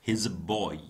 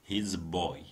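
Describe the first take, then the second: The two takes are said the same way.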